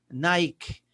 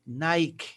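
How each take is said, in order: The two takes are said the same way.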